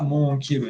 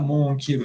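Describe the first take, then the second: First: The n is hidden as a nasal sound. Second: The n is hidden as a nasal sound.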